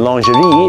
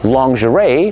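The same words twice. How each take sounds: First: It is pronounced with a French accent. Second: It is pronounced without a French accent. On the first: "หรือ" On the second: "คำนี้ออกเสียงว่า"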